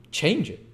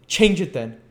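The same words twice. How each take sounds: First: Outraged high exclamation; exclaimed. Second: Laughing taunt. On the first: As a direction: throw her words back in disbelief. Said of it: "exclaimed the Jew". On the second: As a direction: toss it off with a mocking laugh. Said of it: "with a laugh". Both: A narrator's reading.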